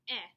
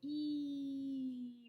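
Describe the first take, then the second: First: The vowel is a short e sound. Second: The vowel is a long e sound. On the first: The speaker calls it wrong. "that wouldn't work because it's not eh" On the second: The speaker calls it right. "the E can walk, go E"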